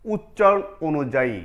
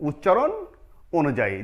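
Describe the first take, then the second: No difference in how they are said.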